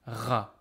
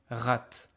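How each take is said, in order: First: The word ends on the vowel, no t. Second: The word ends with an audible t sound. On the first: The speaker calls it right. "exactly as if there was no T" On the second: The speaker calls it wrong. "I am not pronouncing rat"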